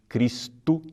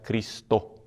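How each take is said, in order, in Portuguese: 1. A vogal final soa como u. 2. A vogal final soa como o. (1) "como nós falamos em português" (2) "deve se pronunciar"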